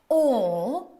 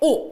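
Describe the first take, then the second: First: The vowel is held long. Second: The vowel is cut short. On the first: The speaker calls it right. "길게 빼주셔야 됩니다" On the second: The speaker calls it wrong. "짧게 오, 어 하시는 게 아니라"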